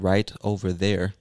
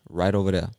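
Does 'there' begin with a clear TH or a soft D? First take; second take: clear TH; soft D. First: The word 'there' starts with a clear th sound. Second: The word 'there' starts with a soft d sound. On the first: "Instead of saying" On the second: "that TH becomes a soft D because it's so much faster to say it"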